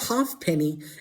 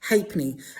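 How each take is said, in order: First: The word is said the way it is spelled. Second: The word is said unlike its spelling. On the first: The speaker calls it wrong. "So not halfpenny" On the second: The speaker calls it right. "it's pronounced halfpenny"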